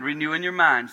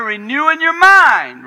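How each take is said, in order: First: Said in the usual way. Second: High, loud, slow proclamation of the text; loud emphatic reading. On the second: Shown as a demonstration. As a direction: belt out the verse, slow and high. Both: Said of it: "it says right here".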